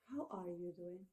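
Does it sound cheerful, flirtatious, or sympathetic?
sympathetic. It sounds soft and sympathetic. The speaker feels for someone who has suffered a loss. "when we sympathy with a person who has had such loss"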